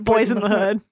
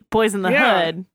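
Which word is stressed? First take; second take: Boys; Hood. First: The word boys carries the main stress. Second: The word hood carries the main stress. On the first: The speaker calls it wrong. "not boys" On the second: The speaker calls it right.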